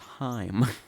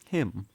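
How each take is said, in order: First: The vowel is long, like in 'eye'. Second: The vowel is short, like in 'it'. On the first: The speaker calls it wrong. "But I always thought it was Heim" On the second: The speaker calls it right. "It's actually pronounced just like him"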